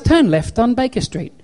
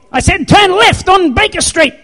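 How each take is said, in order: First: Lightly imitated sat-nav, higher pitch; GPS voice. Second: High, shouted mock scolding; mad GPS. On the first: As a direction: give directions like an unbothered GPS, no shouting. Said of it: "what my G P S does". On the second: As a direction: yell directions like a fed-up sat-nav. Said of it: "It doesn't get mad at me".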